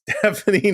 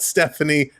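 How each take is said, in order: First: The name begins with a "steve" sound. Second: The name begins with a "steff" sound. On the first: The speaker calls it right. "pronounced Steve, Steph, any" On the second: The speaker calls it wrong. "not Stephanie"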